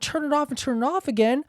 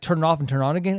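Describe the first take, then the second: First: It is said with mocking, sarcastic amazement. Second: It is said as a plain, sincere suggestion.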